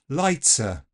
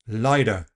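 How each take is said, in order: First: The T is an affricate with a hiss. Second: The T is a quick tap. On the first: "this affrication" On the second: "Tapping the T"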